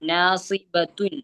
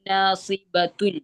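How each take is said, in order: First: The word ends with a full -atun ending. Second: The word ends with a full -atun ending.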